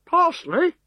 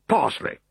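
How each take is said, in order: First: High, doubtful "Parsley?". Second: Lightly voiced officer; offhand officer voice; officer's answer. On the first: Acted. Legionary echoing his officer, high and doubtful. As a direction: repeat "Parsley?" rising, unconvinced. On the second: Decurion to his men, a lightly voiced answer.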